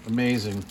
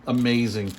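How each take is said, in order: Both takes have the same delivery.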